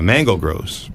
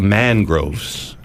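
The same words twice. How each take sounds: First: "mango groves" as two words, with an o ending "mango"; "mango groves", with the extra "go" syllable; misheard pronunciation. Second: "mangroves" as two syllables, man-groves, drawn out; "mangroves", slow and carefully corrected; corrected pronunciation. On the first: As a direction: say "mango groves" like the fruit plus groves. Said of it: "That's what I thought they said". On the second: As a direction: say "mangroves" slowly, with no "go" in it. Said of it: "they're called mangroves". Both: Shown as a demonstration.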